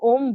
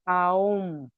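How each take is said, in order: First: The vowel is a single 'o' sound. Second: The vowel glides from 'a' into 'o'. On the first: The speaker calls it wrong. "हम लोग ओम बोलते हैं" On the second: The speaker calls it right. "हकीकत में उसका pronunciation should be आओम"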